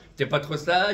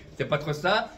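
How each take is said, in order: Both takes have the same delivery.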